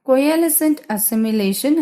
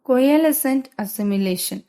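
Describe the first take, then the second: No difference in how they are said.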